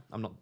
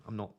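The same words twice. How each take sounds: The two takes are said the same way.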